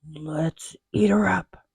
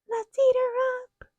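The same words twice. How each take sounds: First: It is said in a deep growling voice. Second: It is said in a high squeaky voice.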